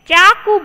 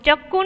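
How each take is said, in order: First: The first vowel is long before a single k. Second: The first vowel is short before a doubled k. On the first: The speaker calls it right. "चाकू बोलते हैं" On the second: The speaker calls it wrong. "हम चक्कू नहीं बोलते"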